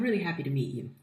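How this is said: It is said in a steady, confident voice. The speaker comes across as competent. The speaker calls it right. "You want to project confidence?"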